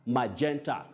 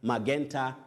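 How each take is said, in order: First: The g is pronounced as a j sound. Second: The g is pronounced as a hard g. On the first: The speaker calls it right. "That G takes the sound J" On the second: The speaker calls it wrong. "Magenta, no"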